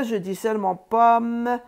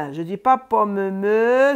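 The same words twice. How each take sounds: First: "pomme" with a held m and no final vowel; correct pomme. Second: "pomme me" with the final e sounded as me; wrong "pomme me". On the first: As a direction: end cleanly on the m. (« pomme » sans e final prononcé, m tenu) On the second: (« pomme me », le e final prononcé à tort) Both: Shown as a demonstration.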